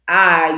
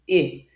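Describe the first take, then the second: First: The letter is said by its name, 'eye'. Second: The letter is said as its short sound, 'ih'. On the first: The speaker calls it wrong. "the actual name of the letter" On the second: The speaker calls it right. "introduce the letter sounds"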